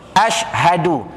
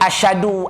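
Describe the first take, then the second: First: The middle sounds are said separately. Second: The middle sounds are run together. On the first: The speaker calls it right. "separatekan bunyinya" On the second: The speaker calls it wrong. "Jangan dibaca asyhadu"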